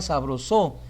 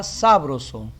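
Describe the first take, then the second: First: Sabroso with SO stressed; wrong stress on SO. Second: Sabroso with SA stressed; wrong stress on SA. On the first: Teacher showing wrong stress on SO. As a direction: lean on SO in sabroso. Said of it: "Si fuese en so". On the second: Teacher showing wrong stress on SA. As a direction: lean on SA in sabroso. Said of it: "y en sa". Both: Shown as a demonstration.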